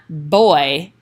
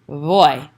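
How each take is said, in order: First: It begins with a hard, fully closed B sound. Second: It begins with a soft B letting air through. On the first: The speaker calls it wrong. "So it's not boy" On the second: The speaker calls it right. "let more um, air pass through as you're saying the beginning"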